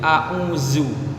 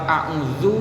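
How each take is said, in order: First: The middle consonant is a plain 'z' sound. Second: The middle consonant is a soft 'dh' sound. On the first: The speaker calls it wrong. "diubah menjadi a'uzu. Secara bunyi dan secara praktek ini sudah jelas salah" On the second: The speaker calls it right. "Lafaz a'udzu"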